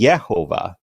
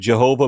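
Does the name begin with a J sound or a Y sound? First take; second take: Y sound; J sound. First: The name begins with a Y sound. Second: The name begins with a J sound.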